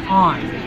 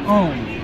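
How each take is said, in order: First: The vowel sounds like the one in 'on'. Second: The vowel sounds like the one in 'own'. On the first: The speaker calls it right. "Jonathan On, because he's Johnny on the spot" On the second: The speaker calls it wrong. "A lot of times they pronounce it Own. That's not right"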